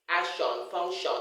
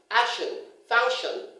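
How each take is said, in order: First: Action, function said as AK-shon, FUNK-shon; full o at the end of Action and function; wrong "shon" endings. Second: Said in the usual way. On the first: Shown as a demonstration. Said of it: "Don't tell the children". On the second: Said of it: "is nation".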